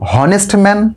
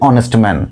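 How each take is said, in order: First: The word begins with an h sound. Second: The word begins with a vowel sound. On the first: The speaker calls it wrong. "আমরা কেউ কি বলি হনেস্ট man" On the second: The speaker calls it right. "অয়ের মতো উচ্চারণ"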